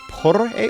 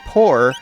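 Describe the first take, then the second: First: The R is rolled. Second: The R is a plain English R. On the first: "like you roll the R's" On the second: "in regular English"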